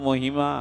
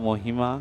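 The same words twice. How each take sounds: Both takes have the same delivery.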